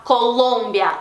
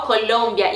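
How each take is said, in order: First: "Colômbia" with a Portuguese nasal o; Portuguese pronunciation. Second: "Colômbia" with the tongue rolled up, a clear l; Spanish "Colômbia", curled tongue; Spanish pronunciation. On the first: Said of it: "em português eu vou falar". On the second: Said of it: "enrola um pouquinho mais a língua". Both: Shown as a demonstration.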